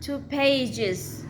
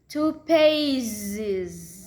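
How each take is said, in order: First: The word ends with a voiceless hissing s sound. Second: The word ends with a voiced buzzing z sound. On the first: The speaker calls it wrong. "It's not two pages" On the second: The speaker calls it right. "The voice D"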